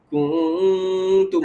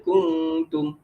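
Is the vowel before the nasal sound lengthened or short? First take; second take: lengthened; short. First: The vowel before the nasal is drawn out. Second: The vowel before the nasal is kept short. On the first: The speaker calls it wrong. "tu maknanya dia tambah mat lah kat depan tu" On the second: The speaker calls it right. "Sebab bacaan patutnya kuntum"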